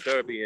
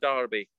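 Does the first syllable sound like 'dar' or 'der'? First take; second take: der; dar. First: The first syllable sounds like 'der'. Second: The first syllable sounds like 'dar'. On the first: This is the American way of saying it. "A Derby in the States" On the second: This is the British way of saying it. "in Britain we'll always call it a Darby"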